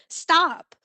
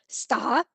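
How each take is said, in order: First: The pitch rises with an excited tone. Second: The pitch moves like a question. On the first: The speaker is excited. "change stop into uh, excitement... you see how the intonation went up? So it rose" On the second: The speaker is asking something. "change stop to a question"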